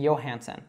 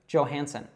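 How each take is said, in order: First: The name begins with a Y sound. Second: The name begins with a J sound. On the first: This follows the name's Scandinavian origin. "the J would be pronounced as a Y" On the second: This is how an American would say it. "she says that J as J"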